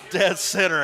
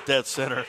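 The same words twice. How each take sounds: First: Dead center said high and louder through a laugh. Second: Said in the usual way. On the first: Real, not acted. Commentator repeating his call of a shot, laughing. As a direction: chuckle the words Dead center out.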